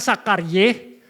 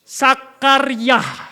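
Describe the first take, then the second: First: The name ends with the syllable 'ye'. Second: The name ends with the syllable 'yah'. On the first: The speaker calls it wrong. "bukan Sakarye" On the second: The speaker calls it right. "Yud He-nya di belakang dibaca Yah"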